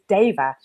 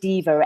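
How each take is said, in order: First: It is said the original way, like deva. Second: It is said the common way, like diva. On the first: This is the original Sanskrit pronunciation. The speaker calls it right. "the actual pronunciation is deva" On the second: This is how most people say the name. The speaker calls it wrong. "people always say diva"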